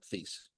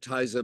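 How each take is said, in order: First: The name is said with an American pronunciation. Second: The name is said with a German pronunciation. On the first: This is the adapted pronunciation now in use. "Americans can't pronounce that, so it wound up Theise" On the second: This is the original pronunciation of the name. "It's German, so it should be Theise"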